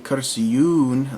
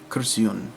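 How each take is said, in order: First: The final vowel is drawn out long. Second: The final vowel is kept short. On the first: It may mean several chairs. The speaker calls it wrong. "like you elongate the u at the end" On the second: It means a single chair. The speaker calls it right. "it's supposed to be"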